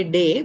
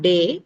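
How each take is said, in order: First: Day with a gliding ay at the end; right day. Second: Day said flat as a pure vowel; wrong day. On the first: Teacher modelling the right day to students. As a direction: glide day into ay. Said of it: "we say day". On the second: Teacher showing the wrong day to students. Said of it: "It's not day". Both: Shown as a demonstration.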